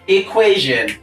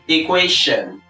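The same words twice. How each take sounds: First: The middle consonant is a voiced 'zh' sound. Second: The middle consonant is a voiceless 'sh' sound. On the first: The speaker calls it right. "voiced palato-alveolar fricative" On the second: The speaker calls it wrong. "a lot of people mispronounce this word as"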